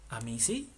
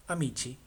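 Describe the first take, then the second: First: Amisi with a plain s sound for the C; wrong pronunciation. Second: Amici with a ch sound, a-mi-chi; correct Italian pronunciation. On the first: (amisi con sonido de s, la forma incorrecta) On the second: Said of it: "C, I, chi". (amici pronunciado con ch, a-mi-chi) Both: Shown as a demonstration.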